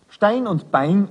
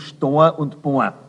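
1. Der Vokal ist der standarddeutsche Diphthong 'ei'. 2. Der Vokal ist ein dialektaler 'oa'-Laut. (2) "werden zu Stor und Bohr"

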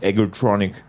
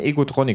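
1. Der Name wird mit englischen Lauten ausgesprochen. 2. Der Name wird mit deutschen Lauten ausgesprochen. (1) "nicht Egotronic. Das sind keine Engländer" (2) "die heißen Egotronic ... das sind Berliner"

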